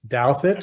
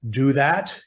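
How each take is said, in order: First: The name does not sound like 'do that'. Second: The name sounds like the phrase 'do that'. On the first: The speaker calls it right. "that is the correct pronunciation" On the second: The speaker calls it wrong. "not do that"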